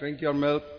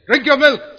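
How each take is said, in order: First: It is said at a normal, quiet volume. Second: It is said with a raised, loud voice. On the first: The child is not paying attention yet. "Can't hear" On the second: The voice is raised so the child hears. "It's not anger. ... when you raise your voice at your children"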